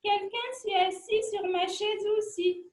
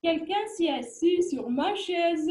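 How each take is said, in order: First: It is said in a soft, gentle voice. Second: It is said in a deep, big voice.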